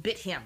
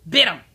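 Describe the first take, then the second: First: Said in the usual way. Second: BIT punched very loud; loud, abrupt stress on "Bit"; emphatic repeat. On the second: Real, not acted. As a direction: hit "Bit" hard and short, outraged.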